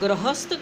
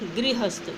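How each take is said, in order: First: The first syllable has no 'ri' sound. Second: The first syllable has an 'ri' sound. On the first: The speaker calls it wrong. "अशुद्ध रूप है" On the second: The speaker calls it right. "र के पीछे ई की आवाज़ आनी चाहिए"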